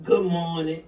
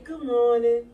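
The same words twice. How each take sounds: First: It is said in a negative, sour tone. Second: It is said in a warm, flowing tone.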